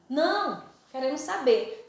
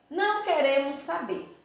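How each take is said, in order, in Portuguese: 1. Há uma pausa logo depois de não. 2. Não há pausa depois de não. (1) "não, aí dou uma pausa, queremos saber" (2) "porque eu não quero saber da história"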